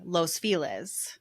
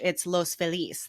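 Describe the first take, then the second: First: The name is pronounced the local English way. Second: The name is pronounced the Spanish way. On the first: This is how people in the city actually say it. "Culturally, we say" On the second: This is the name's original meaning, 'the happy people'. "in Spanish"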